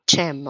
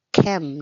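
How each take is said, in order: First: "chem" said with a ch sound, like cheese, marked as wrong; wrong pronunciation. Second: "chem" with a hard k sound, like kem; correct pronunciation. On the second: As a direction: say "chem" starting with a crisp k, as in kettle. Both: Shown as a demonstration. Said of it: "not chem".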